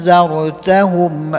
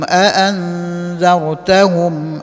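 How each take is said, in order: First: It begins with one long vowel, no second stop. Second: It begins with two separate glottal stops. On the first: "dibaca dengan menghilangkan hamzah kedua, memanjangkan hamzah pertama" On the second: "di situ ada dua hamzah, a an"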